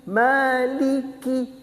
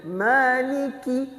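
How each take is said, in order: No difference in how they are said.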